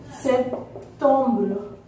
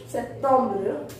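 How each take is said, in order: First: "September" very slow, pause after "Sep"; slow teaching split of "September", French ending; syllable by syllable. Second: Said in the usual way. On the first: Shown as a demonstration. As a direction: break "September" into "Sep... tombre". Teacher splits the word for learners.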